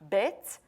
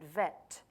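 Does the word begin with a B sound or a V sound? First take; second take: B sound; V sound. First: The word begins with a B sound. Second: The word begins with a V sound.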